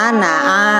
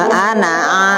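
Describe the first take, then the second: No difference in how they are said.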